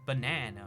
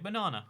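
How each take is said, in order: First: Every sound is pronounced fully with effort. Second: Sounds are relaxed and reduced with little effort. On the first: "all the effort of saying" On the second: "when you can just say"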